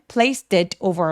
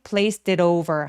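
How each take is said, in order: First: The t in 'it' is a clear t. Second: The t in 'it' is a soft rolling flap. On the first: "그냥 T 소리 내셔도 괜찮습니다" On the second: "water 할 때처럼 굴러가는 소리"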